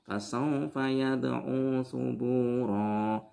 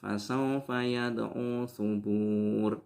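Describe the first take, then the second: First: The final vowel of the last word is long. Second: The last word ends without a final vowel. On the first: The speaker calls it right. "Di situ ro-nya harus dibaca satu alif" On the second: The speaker calls it wrong. "Apalagi dibaca sukun"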